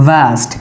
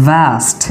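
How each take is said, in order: No difference in how they are said.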